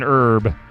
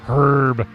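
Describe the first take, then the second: First: The word starts without an H sound. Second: The word starts with a clear H sound. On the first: "Tell them that you have an herb" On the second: "they will correct you"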